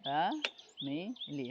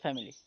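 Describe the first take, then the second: First: "ফ্যামিলি" slowly as fa, mi, li; syllable by syllable. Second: Said in the usual way. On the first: Shown as a demonstration. Teacher showing students how to learn pronunciation, "ফ্যামিলি" slowly split fa-mi-li. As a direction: pause between each beat of "ফ্যামিলি". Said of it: "এইভাবে এই যে, এ, উচ্চারণ শিখে যাবেন". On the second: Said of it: "পারবেন যে".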